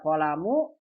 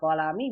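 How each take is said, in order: First: The word ends with the vowel u. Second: The word ends with the vowel i. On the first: "Ini bisa dibaca kolamu" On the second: "bisa kolami"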